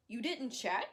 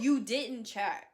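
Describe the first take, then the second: First: Rising, disbelieving you didn't check; incredulous question. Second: Louder and slow, falling firmly on "You didn't check."; flat emphatic repeat. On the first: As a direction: ask it in disbelief, voice rising at the end. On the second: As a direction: hammer it home as a slow indignant statement. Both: Real, not acted.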